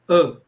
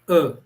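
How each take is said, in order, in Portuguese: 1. A vogal é curta e fechada. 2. A vogal é curta e fechada.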